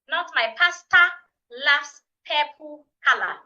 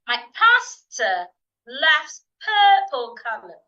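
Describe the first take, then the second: First: It uses Ghanaian vowels with full endings. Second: It uses standard vowels with weak endings. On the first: The speaker calls it wrong. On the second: The speaker calls it right. "So again"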